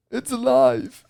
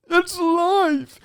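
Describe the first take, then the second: First: High, loud "It's alive"; mad scientist cry. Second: "It's alive" sung out very high, loud and slow; mad scientist shriek. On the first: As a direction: shout it like Frankenstein's doctor. Frankenstein quote, house alive. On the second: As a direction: stretch it like a mad doctor's triumph. Repeated Frankenstein quote, higher. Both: Pretend.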